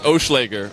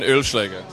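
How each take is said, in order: First: The name is said with English sounds. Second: The name is said with German sounds.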